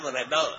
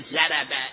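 First: The first consonant is the emphatic Arabic sound. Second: The first consonant is a plain Persian z. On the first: It carries the intended meaning of the word. The speaker calls it right. "کلمه وربه را از مخرج ادا کنی" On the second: It carries a rude meaning for Arabic listeners. The speaker calls it wrong. "اگر وربه را مثل ما پیش عرب ها بگه"

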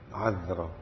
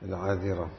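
First: The middle consonant is followed by no vowel. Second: The middle consonant is followed by an i vowel. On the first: "لغة بإسكان الذال" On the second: "بكسر الذال"

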